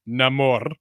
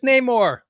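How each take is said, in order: First: The name is pronounced the way the movie does. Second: The name is pronounced the comic-book way, unlike the movie. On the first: The speaker calls it wrong. "I don't want to pronounce it like they do uh, did in the movie, so I'm not going to say Namor" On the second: The speaker calls it right. "It's Namor"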